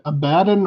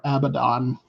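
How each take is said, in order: First: Abaddon stressed on the middle syllable, "uh-BAD-un"; Abaddon pronunciation variant. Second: Abaddon with a full final vowel, "AB-uh-don"; Abaddon alternate pronunciation. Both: Shown as a demonstration. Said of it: "is it Abaddon or Abaddon".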